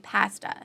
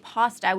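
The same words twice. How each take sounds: First: It is said the Canadian way. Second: It is said the American way.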